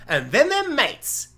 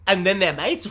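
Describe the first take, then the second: First: High, slow punchline to a pitch; mock pitch. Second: Baffled echo with rising end; mock disbelief. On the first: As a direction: sell the absurd twist, drawn out. Pitches absurd show premise. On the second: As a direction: repeat it as an incredulous question. Plays baffled listener repeating it.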